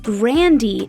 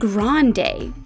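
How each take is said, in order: First: The name ends with an 'ee' sound. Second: The name ends with a 'day' sound. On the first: The speaker calls it right. "with a hard E at the end" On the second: The speaker calls it wrong. "instead of a long day"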